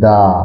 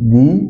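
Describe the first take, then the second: First: The vowel sounds like 'uh', as in 'thuh'. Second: The vowel sounds like 'ee', as in 'thee'. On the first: The next word starts with a consonant. "কনসোনেন্টের আগে টিএইচই থাকলে এর উচ্চারণ দা হয়" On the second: The next word starts with a vowel. "ভাওয়েলের আগে টিএইচই থাকলে এর উচ্চারণ দি হয়"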